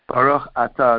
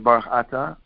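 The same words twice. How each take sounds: First: Atah starts with a separate, clear vowel onset. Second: Baruch runs straight into Atah without a break. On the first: The speaker calls it right. "instead of saying Baruch Atah" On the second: The speaker calls it wrong. "they say Baruch Atah, so they drop the Aleph"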